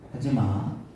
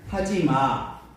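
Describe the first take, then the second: First: It is said in a normal, calm voice. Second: It is said in a higher, raised voice. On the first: A first, mild warning. "처음에는" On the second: A sterner warning after being ignored. "목소리 톤이 조금 더 올라가요"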